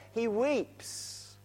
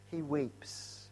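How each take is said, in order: First: Said in the usual way. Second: Softer and lower, hushed echo of He weeps; hushed repeat. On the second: Shown as a demonstration. Preacher echoes that Jesus weeps, softer and lower. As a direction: let He weeps fall away quietly.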